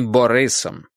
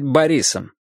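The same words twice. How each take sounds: First: The name is pronounced the Ukrainian way. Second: The name is pronounced the Russian way. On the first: This is how the name is said in the speaker's own language. "а не Борисом" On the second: This form is easier for people in North America. "его лучше произносить по-русски и быть Борисом"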